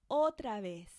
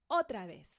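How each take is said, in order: No difference in how they are said.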